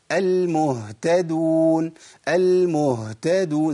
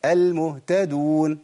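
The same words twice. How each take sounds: First: Very slow "المهتدون" with a long breathed h; audible ha. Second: Slow "المهتدون" with the h barely there; ha inaudible. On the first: Teacher models another example, audible ha. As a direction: hold the h in "المهتدون" before moving to t. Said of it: "سامعين صوت الهاء؟". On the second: Teacher demonstrates the mistake, ha inaudible. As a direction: rush past the h of "المهتدون" straight to t. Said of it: "الخطأ نقول". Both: Shown as a demonstration.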